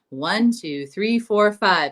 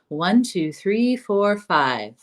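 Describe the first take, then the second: First: The counting is said with noticeably raised energy. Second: The counting is said with moderate, relaxed energy. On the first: "turn up the energy a little bit" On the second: "keeping the airflow connected"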